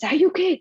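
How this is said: It is said in an anxious, worried tone.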